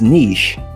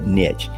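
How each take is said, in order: First: The word is said the common non-Texan way. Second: The word is said the Texan way. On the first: "depending on where you live, you might actually pronounce it as niche" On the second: "I'm originally from Texas... We call it niche"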